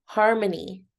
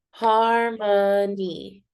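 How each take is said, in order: First: Said in the usual way. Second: HARMONY stretched very slowly into three beats; syllable by syllable. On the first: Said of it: "Let's do harmony". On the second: Shown as a demonstration. Teacher clapping out a practice word, Harmony very slowly syllable by syllable. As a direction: draw out each syllable of Harmony. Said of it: "clapping out the syllables".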